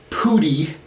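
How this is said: It is said with a Brooklyn 'oo' vowel.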